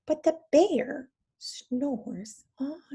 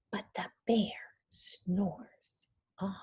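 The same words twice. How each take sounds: First: Slow, sing-song rising tune; drawn-out refrain. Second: Slow suspenseful whisper; spooky storytime hush. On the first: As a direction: stretch out the refrain for the kids. Refrain read aloud again. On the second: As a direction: whisper it so the bear won't wake. Teacher builds suspense in storytime. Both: Shown as a demonstration.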